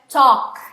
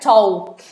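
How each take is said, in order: First: The word is said with no L sound. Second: The word is said with an L sound. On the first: The speaker calls it right. "esse L não é pronunciado" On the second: The speaker calls it wrong. "não é talk"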